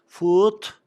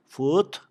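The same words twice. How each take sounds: First: "Foot" said high and loud with a crisp, hard final t. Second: "Foot" repeated with a firm, unvoiced t at the end; hard final t. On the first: Teacher demonstrating the crisp t ending of "Foot". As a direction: snap the t at the end of "Foot". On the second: Teacher repeating "Foot" after explaining the hard t. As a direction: finish "Foot" with a clean t, not a d. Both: Shown as a demonstration. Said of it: "Bunu sert okuyun yalnız sonunu".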